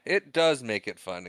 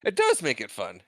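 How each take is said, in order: First: Said in the usual way. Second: High-pitched start, dropping away; pitched too high. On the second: Real, not acted. Repeating a line that pitched too high, high-pitched. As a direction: start high on "It does", then fall. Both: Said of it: "in case that one pitched too high".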